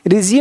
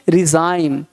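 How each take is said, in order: First: The last vowel sounds like 'ee'. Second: The last vowel sounds like 'eye'. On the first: The speaker calls it wrong. "रिजिम नहीं" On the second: The speaker calls it right. "यहाँ पे जाइम पढ़ेंगे"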